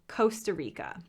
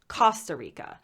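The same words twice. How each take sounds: First: The first vowel sounds like the o in coast. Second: The first vowel sounds like the o in cost. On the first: "I will say it the American way" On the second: "they pronounce the O not as a coast, but as cost"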